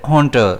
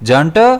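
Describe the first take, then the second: First: The word begins with an H sound. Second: The word begins with a J sound. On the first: "होंटर pronounce करेंगे तो एच पर इसका stress रहेगा" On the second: "अगर जंटर pronounce करेंगे तो इसमें स्ट्रेस जो है वो ज पर रहेगा"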